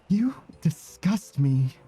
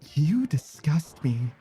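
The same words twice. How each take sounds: First: It sounds genuinely horrified and disgusted. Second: It sounds flat, without much conviction. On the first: "That's like actually horrified" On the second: "I didn't say that with the right conviction"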